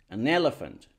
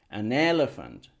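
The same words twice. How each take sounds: The two takes are said the same way.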